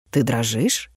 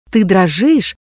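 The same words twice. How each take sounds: First: Low, quiet, barely voiced question; hushed question. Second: Said in the usual way. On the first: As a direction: ask it softly, almost under the breath.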